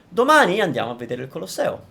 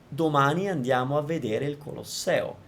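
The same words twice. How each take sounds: First: The word domani carries extra emphasis. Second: All syllables are even, with no word stressed. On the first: It is tomorrow that we are going. "I would put a little more emphasis on the domani" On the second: Nothing in the sentence is singled out. "I'm not emphasizing anything in particular"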